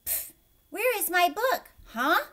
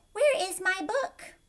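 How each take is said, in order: First: Loud, high, with sound effects for the marks; effortful loud read-aloud with pff and huh; reading with punctuation sounds. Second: Reading without punctuation. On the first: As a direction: say each mark as a silly noise. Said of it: "Gilbert took a deep breath and started". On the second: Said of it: "it would be nice to know where the punctuation marks are". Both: A narrator's reading.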